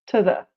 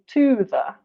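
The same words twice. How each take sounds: First: The word 'to' has a reduced schwa vowel. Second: The word 'to' has a full vowel. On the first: The speaker calls it right. "when two is not emphasized is pronounced t" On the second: The speaker calls it wrong. "we don't usually say"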